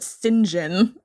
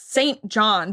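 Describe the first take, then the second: First: The name is squeezed into one reduced word. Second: The name is said as two full words. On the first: This is how the film says the name. "but they pronounce it" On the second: This is how the name is written. "it's Saint John"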